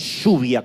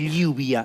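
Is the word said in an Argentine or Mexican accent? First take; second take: Argentine; Mexican. First: It is said in an Argentine accent. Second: It is said in a Mexican or Venezuelan accent. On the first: This is how the speaker's own country says it. The speaker calls it right. "en vez de lluvia como corresponde" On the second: This is how people from another country say it. The speaker calls it wrong. "¿por qué dicen lluvia"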